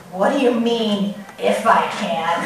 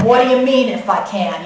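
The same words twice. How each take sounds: First: Low, quiet tough-guy challenge. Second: Put-on tough New York accent comeback. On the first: Acted. Jesus answering the doubting father, tough and low-key. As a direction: coolly put the doubter on notice. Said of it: "He sounds so tough". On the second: Jesus answering the doubting father in a New York accent. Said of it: "I picture that in a New York accent".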